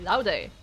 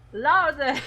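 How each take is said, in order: First: The word is said at normal volume. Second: The word is shouted loudly.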